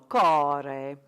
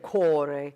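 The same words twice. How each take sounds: First: The O vowel is open, with the mouth wider. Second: The O vowel is closed, with the mouth narrower. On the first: The speaker calls it right. "That backward C is an open O" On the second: The speaker calls it wrong. "instead of core"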